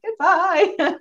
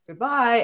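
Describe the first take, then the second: First: High, drawn-out teary goodbye; high mock-sentimental goodbye; emotional husband goodbye. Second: Said in the usual way. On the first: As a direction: lightly mimic the husband's heartfelt farewell. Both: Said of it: "can you see the difference?".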